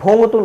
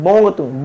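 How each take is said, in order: First: The first sound is an aspirated bh. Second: The first sound is a plain b. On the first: The speaker calls it wrong. "भोंगतुंग नहीं" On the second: The speaker calls it right.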